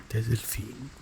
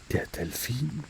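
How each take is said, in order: Both takes have the same delivery.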